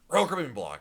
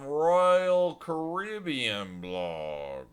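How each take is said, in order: First: It is said quickly in a Northeastern US accent. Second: It is said slowly in a Southern US drawl. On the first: "I say it very fast, Jeff. But where I'm from the Northeast" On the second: "In the South, it's like, y'all"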